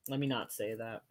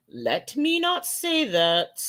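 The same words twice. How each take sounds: First: Softer, lower self-correction; quiet aside. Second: Higher, slowed and deliberate; slow emphasis. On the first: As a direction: mutter it to yourself. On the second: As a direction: lean on not, slowly. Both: Real, not acted.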